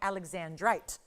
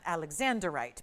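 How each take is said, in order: First: The word ends in '-andrite', with four syllables. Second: The word ends in '-anderite', with five syllables. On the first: The speaker calls it right. "it's called Alexandrite" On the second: The speaker calls it wrong. "not Alexanderite, because it seems to be mispronounced all the time"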